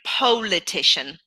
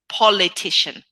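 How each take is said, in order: First: The first vowel is a long gliding 'oh'. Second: The first vowel is a short 'o'. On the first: The speaker calls it wrong. "the tendency is going politician" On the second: The speaker calls it right. "It's a short oh sound, like orange"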